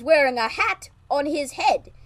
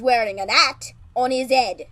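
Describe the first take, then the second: First: The h sounds in hat and head are pronounced. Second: The h sounds in hat and head are dropped. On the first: This is how Americans say it. "you bloody Americans would say" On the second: This is how the British say it. "in British, we say"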